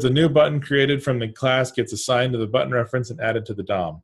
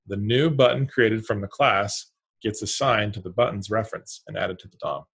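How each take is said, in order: First: It is read at normal pace. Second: It is read slowly.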